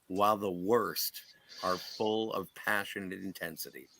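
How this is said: The voice falls at the end like a statement.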